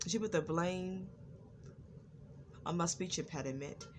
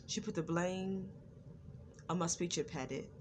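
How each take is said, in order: Both takes have the same delivery.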